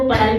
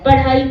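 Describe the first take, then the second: First: The ढ़ sound is replaced by another sound. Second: The ढ़ sound is said as a flap.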